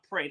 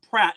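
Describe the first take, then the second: First: The vowel sounds like the one in 'gate'. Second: The vowel sounds like the one in 'cat'. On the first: The speaker calls it wrong. "not Prate. I've been pr- pronouncing it wrong" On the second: The speaker calls it right. "his last name is pronounced Pratt"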